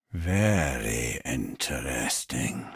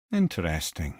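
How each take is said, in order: First: Very slow and much lower, savouring every word; slow intrigued musing. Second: Said in the usual way. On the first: Acted. Mimir poring over Tyr's secret plans, slow low musing. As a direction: stretch it out, deeply intrigued.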